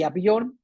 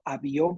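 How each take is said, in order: First: "avión" as Á-vion, stressed on A; stress on first syllable. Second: "avión" stressed on the final ÓN; stress on last syllable. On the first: Teacher comparing options, "avión" wrongly stressed on first A. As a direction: move the stress of "avión" onto A. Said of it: "la letra A o primera sílaba". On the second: Teacher comparing options, "avión" accented on ÓN. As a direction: lean on ÓN in "avión". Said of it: "avión con acento". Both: Shown as a demonstration.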